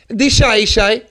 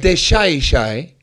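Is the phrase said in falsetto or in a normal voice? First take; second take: falsetto; normal. First: It is said in a high falsetto voice. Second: It is said in a normal, lower voice. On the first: The speaker calls it wrong. "No. It's never... In Castellano, they do not use falsetto" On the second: The speaker calls it right. "So it's de shai shai"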